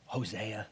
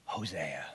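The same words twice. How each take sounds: First: Soft, low, gentle calling of the name. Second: Much lower, a tender whispered name; whispered call. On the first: God calling Hosea by name, gentle and firm. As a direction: say the name gently but firmly. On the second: God whispering Hosea's name, tender and firm. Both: Acted. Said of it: "gently, firmly".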